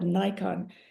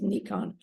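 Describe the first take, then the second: First: It is said with an English pronunciation. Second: It is said with a Japanese pronunciation. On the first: "we call it Nikon, the camera" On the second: "It's actually pronounced in, G- in Japanese"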